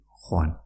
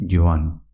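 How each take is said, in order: First: "joan" as khoan; j like Spanish jota. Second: "joan" as yoan. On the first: Teacher shows the alternative form, j as jota. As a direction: say "joan" with a throaty h, as in junta. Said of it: "también puedes decir". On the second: Teacher shows the preferred way to say go, j as y. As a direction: say "joan" with a y sound first. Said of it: "parecida a la pronunciación de la letra Y". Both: Shown as a demonstration.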